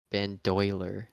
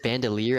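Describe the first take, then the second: First: It is said as 'ban-doy-ler'. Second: It is said as 'bando-leer'. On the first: The speaker calls it wrong. "I always pronounced it in my head bandoiler" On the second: The speaker calls it right. "Is it bandolier?"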